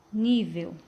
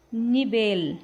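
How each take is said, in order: First: Nível stressed on NÍ; Portuguese first-syllable stress. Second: Nivel stressed on VEL; Spanish final stress. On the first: Teacher giving the Portuguese translation, nível stressed on NÍ. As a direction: say nível with weight up front. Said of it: "Português". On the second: Teacher reading the Spanish example, nivel stressed on VEL. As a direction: say nivel leaning on the last syllable. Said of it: "Em espanhol". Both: Shown as a demonstration.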